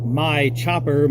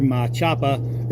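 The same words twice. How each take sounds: First: Said in the usual way. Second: Boston accent, Machapa said with dropped r's, mah-CHAH-puh; slow, drawn-out Boston accent on Machapa. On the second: Shown as a demonstration. Naming his knife in a Boston accent. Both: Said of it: "doesn't speak with that horrible accent".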